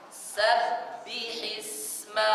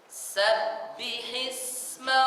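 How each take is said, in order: No difference in how they are said.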